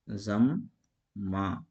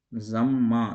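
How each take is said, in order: First: ज़म्मा very slowly in two parts, "zam", pause, "maa"; split syllables. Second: ज़म्मा louder, joined as "zammaa" without a break; joined double m. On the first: Teacher shows meem read twice, ज़म्मा split as "zam... maa". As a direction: break ज़म्मा between the two m sounds with a long pause. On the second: Teacher puts the word back together, ज़म्मा loud and joined. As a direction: say ज़म्मा firmly as one word, leaning on the double m. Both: Shown as a demonstration. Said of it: "मीम को यहाँ जो है दो बार पढ़ा गया".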